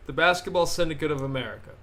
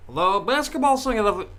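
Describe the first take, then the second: First: Said in the usual way. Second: Put-on high, loud old-time radio announcer; transatlantic radio announcer. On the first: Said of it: "I gotta do my voice". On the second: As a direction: boom it out like a 1930s newsreel. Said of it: "transatlantic radio announcer voice".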